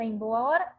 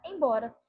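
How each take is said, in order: First: "Em boa hora" said as separate words; full separate words. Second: "embora" run together as one word; merged form. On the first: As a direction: say "Em boa hora" in full, keeping every vowel. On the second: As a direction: say "embora" fused, with the sounds dropped. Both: Shown as a demonstration. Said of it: "Olha a diferença".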